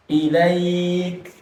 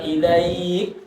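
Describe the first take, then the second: First: Ilaik said smoothly; right way. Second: Ilaik, slowly, with the l doubled; wrong way. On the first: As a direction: ilaik without an added letter. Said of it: "bukan ilaik". (ilaik tanpa tasydid) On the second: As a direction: ilaik with an added tasydid. (ilaik salah, ada tasydid) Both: Shown as a demonstration.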